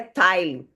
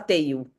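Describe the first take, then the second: First: The surname has a German-style vowel sound. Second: The surname has a Brazilian Portuguese vowel sound. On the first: This is the original pronunciation of the name. "se fosse falar certo mesmo, que é uma origem alemã" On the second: This is how people commonly say it in Brazil. "todo mundo fala Teil"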